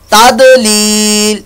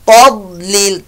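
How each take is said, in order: First: The middle consonant has a bouncing echo. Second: The middle consonant is held without a bounce. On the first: The speaker calls it wrong. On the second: The speaker calls it right.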